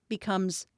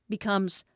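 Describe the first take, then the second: Both takes have the same delivery.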